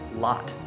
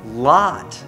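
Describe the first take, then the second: First: The vowel is short at normal volume. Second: The vowel is stretched long and said louder. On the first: "instead of just lot" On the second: "I stretch out that O, and I do lot"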